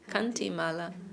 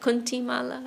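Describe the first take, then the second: First: The first word has an 'a' vowel. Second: The first word has a 'u' vowel. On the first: "maybe it's actually Kanti" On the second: "Are we pronouncing that right?"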